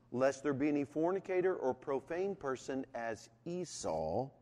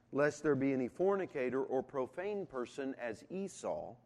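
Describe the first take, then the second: The two takes are said the same way.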